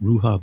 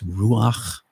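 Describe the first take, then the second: First: The word ends in an open vowel sound. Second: The word ends in a throaty consonant sound. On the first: The speaker calls it wrong. "that's been an incorrect pronunciation" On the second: The speaker calls it right. "it's ruach"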